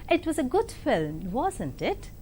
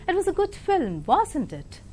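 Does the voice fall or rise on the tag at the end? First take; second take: rise; fall. First: The voice rises on the final tag. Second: The voice falls on the final tag. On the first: The listener is free to agree or disagree. "When you use a rising tone in a tag question like this" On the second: The listener is expected to agree. "With a falling tone"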